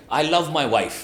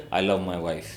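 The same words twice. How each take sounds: First: "wife" said on a lifted, lively pitch; upward inflection. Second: Low, unconvinced drop onto "wife"; downward inflection. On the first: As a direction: keep "wife" up, as if delighted. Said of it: "you can do an upward inflection". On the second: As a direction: let "wife" sink as if doubtful. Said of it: "But if I said". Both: Shown as a demonstration.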